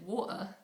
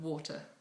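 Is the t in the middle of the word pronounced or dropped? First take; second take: dropped; pronounced. First: The middle t sound is dropped. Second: The middle t sound is clearly pronounced.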